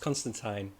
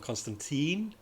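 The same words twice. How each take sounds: First: The name is said the English way. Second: The name is said the American way. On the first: The speaker calls it right. "when it's Constantine" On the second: The speaker calls it wrong. "how Americans say John Constantine"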